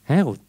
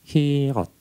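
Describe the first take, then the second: First: The vowels are 'eh' then 'oo'. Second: The vowels are 'ee' then 'o'. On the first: It names a door of freedom. "memakai E atau He. Dan dipasanglah U di sini, bukan O. Jadi dibacanya Herut" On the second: It names the mouth of the sea. "di bawah I, di tengah U, di atas O. Jadi kita bacanya hirot"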